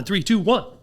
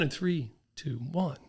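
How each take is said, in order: First: The countdown is fast, loud and energetic. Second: The countdown is slow, soft and calm. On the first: The workout is pushing to maximum effort. "When you take me to an all out, when you push me" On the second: The workout is easing back down. "bring me back down, it's okay"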